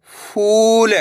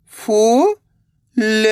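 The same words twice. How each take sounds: First: फूल joined, long ऊ; blended word. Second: फू, long pause, ल; फूल split slowly, rising first syllable. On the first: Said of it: "तो मिलके बन जाएगा". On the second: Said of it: "एक अक्षर का उच्चारण करना है". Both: Shown as a demonstration.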